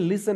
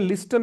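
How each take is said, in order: First: The t sound is left silent. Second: The t sound is clearly pronounced. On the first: The speaker calls it right. "ये लिसन है" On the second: The speaker calls it wrong. "ये लिस्टन नहीं"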